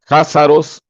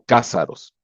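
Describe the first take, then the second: First: It begins with a throaty h sound. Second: It begins with a hard k sound. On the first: "algunos lo pronuncian con J" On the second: "otros los pronuncian con K"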